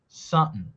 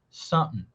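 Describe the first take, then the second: No difference in how they are said.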